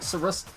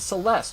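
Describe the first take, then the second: First: The L is replaced with an R sound. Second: It is said with a clear L sound. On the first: This is how a Japanese speaker would say it. "that means they don't pronounce the L" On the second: This is the English form of the name. "if you were to translate that into English"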